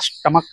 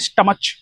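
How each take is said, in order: First: The word ends with a 'k' sound. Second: The word ends with a 'ch' sound. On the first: The speaker calls it right. "ये होता है स्टमक" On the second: The speaker calls it wrong. "कुछ बच्चे बोलेंगे स्टमच"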